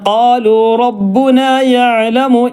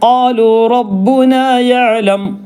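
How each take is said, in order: First: The last word ends with a short vowel. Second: The last word ends on a plain consonant. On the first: The reading continues into the next word. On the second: The reading stops at this word.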